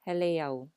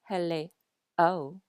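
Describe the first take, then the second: First: The final e glides smoothly into the o. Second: The final e and the o are separated. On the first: The speaker calls it right. "Do you hear the glide between the end of hele and o?" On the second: The speaker calls it wrong. "It's not hele o because o does not have an okina"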